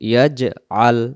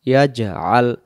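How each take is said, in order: The two takes are said the same way.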